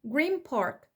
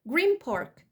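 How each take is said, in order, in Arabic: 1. نهاية green تُقفل بالشفتين. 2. نهاية green تُقفل بالشفتين.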